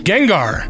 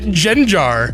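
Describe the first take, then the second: First: The middle consonant is a hard g sound. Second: The middle consonant is a soft j sound.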